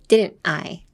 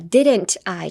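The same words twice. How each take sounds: First: A brief catch separates didn't from I. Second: The T runs smoothly into the I. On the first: The speaker calls it right. "ちっちゃいつをdidn't とI の間で入れたら…ちょっと一回ツンってあのビートが入る感じ" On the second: The speaker calls it wrong. "didn't I じゃなくて"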